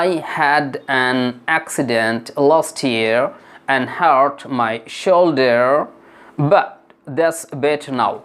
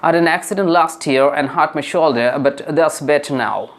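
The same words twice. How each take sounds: First: The sentence is spoken at a normal pace. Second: The sentence is spoken at a faster pace. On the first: "আমি আবারও বলি" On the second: "এবার একটু দ্রুত গতিতে বলবো"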